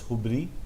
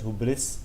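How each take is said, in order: First: The word ends without an s sound. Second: The word ends with an s sound. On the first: The speaker calls it right. "it's hubri" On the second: The speaker calls it wrong. "It's not pronounced, pronounced as hubris"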